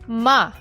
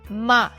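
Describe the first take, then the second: First: The pitch falls from high to low. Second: The pitch falls from high to low.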